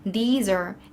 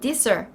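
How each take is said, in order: First: The vowel in 'these' is long. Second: The vowel in 'these' is short. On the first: The speaker calls it right. "이렇게 발음하시는 거고요" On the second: The speaker calls it wrong. "이런 식으로 발음 짧게 하시는 분들 굉장히 많아요"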